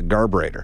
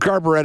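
First: The word ends with an 'ator' sound. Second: The word ends with an 'etta' sound. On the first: This is the correct name of the device. The speaker calls it right. "it's actually called a garburator" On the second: This is claimed to be the British pronunciation. The speaker calls it wrong. "I think garburetta is the British pronunciation"

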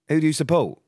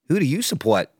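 First: It is said without an American accent. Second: It is said in an American accent.

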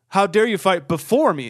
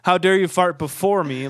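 First: The word before is stressed. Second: The word before is not stressed. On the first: Someone passed gas earlier than she did. "She puts the emphasis on before" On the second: Someone passed gas in front of her. "I know everyone was thinking like"

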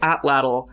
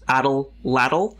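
First: The middle L is pronounced only once. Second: The middle L is pronounced twice. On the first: The speaker calls it right. "I say atlatl" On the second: The speaker calls it wrong. "you're pronouncing the middle L twice"

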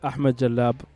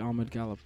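First: The surname is said with its original Arabic sounds. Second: The surname is said in a simplified English way. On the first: This is the real name. "It's pronounced Ahmed Jalab" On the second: This is easier for people who don't speak Arabic. "so I just say Ahmed Galab"

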